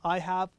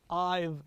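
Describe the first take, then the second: First: The word have is said in full. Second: The word have is reduced to a v sound.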